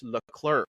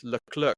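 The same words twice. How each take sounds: First: Leclerc with the R pronounced; American pronunciation. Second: Leclerc with the R dropped; British pronunciation. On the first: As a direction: say Leclerc American-style, sounding the R. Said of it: "for the American pronunciation, they actually pronounce the R". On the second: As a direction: say Leclerc British-style, no R before the final k. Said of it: "the British pronunciation does not, um, does not pronounce the". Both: Shown as a demonstration.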